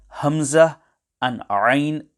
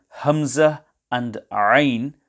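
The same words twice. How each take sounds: The two takes are said the same way.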